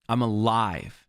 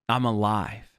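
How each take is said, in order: No difference in how they are said.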